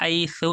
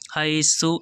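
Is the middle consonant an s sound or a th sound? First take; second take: th sound; s sound. First: The consonant is pronounced as a lisped th sound. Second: The consonant is pronounced as a plain s sound. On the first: The speaker calls it right. "सा है, आवाज़ निकालेंगे" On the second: The speaker calls it wrong. "हाई सु ऐसे नहीं पढ़ेंगे"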